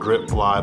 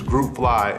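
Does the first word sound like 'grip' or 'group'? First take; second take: grip; group. First: The first word has a short 'i' vowel. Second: The first word has a long 'oo' vowel. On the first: The speaker calls it wrong. "some people even pronounce it wrong" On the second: The speaker calls it right. "it's Group Fly"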